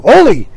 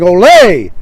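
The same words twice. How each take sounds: First: Ole said loud like "oh-lee"; mispronounced Ole. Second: Loud, drawn-out Ole; imitated crowd shout. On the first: Retold or imitated. Lou shouting in the bull ring, Ole mispronounced as oh-lee. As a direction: shout Ole to rhyme with "holy". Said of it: "Lou is shouting". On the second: Crowd shouting in the bull ring, imitated cheer. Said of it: "everybody's shouting".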